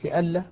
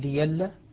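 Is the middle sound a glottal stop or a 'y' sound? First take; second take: glottal stop; y sound. First: The middle sound is a glottal stop. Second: The middle sound is a 'y' sound. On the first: "كلمة لألا" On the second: "أبدل ورش كهمزة لألا فقال ليلا"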